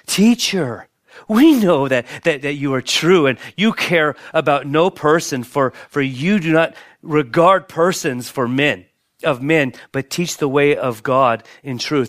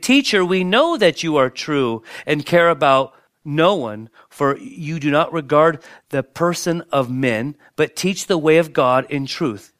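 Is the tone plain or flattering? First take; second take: flattering; plain. First: It is said in a fawning, flattering tone. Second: It is read in a plain tone.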